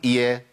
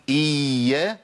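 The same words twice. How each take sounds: First: "إيا" quick, with just one undoubled ya; single short ya. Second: "إيا" with the ya dragged out too long; overlong ya. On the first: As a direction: cut the ya in "إيا" down to one letter. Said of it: "ولا أقول إيا وأجيب ياء واحدة". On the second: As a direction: stretch the ya of "إيا" beyond its measure. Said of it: "لا أقول إيا". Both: Shown as a demonstration.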